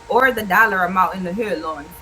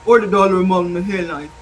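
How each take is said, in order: First: It is read in an ordinary speaking voice. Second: It is read in a put-on tough gang voice.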